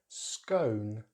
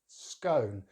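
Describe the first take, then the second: First: The vowel is a diphthong. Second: The vowel is a diphthong.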